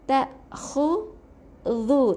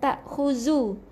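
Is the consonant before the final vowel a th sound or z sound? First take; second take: th sound; z sound. First: The consonant is a soft th sound, tongue out. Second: The consonant is a buzzing z sound. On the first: The speaker calls it right. "huruf zal ni, lidah kena keluarkan eh" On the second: The speaker calls it wrong. "Bukan huruf Z eh"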